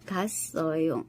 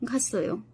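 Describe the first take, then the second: First: The syllables are said separately, one by one. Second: The syllables are run together in one go. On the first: "ছাড়া ছাড়া ভাবে বলতেছি।" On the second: "যখন কথা বলবো তখন একবারেই বলবো"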